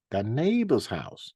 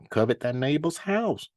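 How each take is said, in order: First: "neighbor's" leaned on, slowly; stress on NEIGHBOR'S. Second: Said in the usual way. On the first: Shown as a demonstration. Preacher repeats the commandment for his listeners, stressing "neighbor's". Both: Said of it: "I'm stressing that word neighbor".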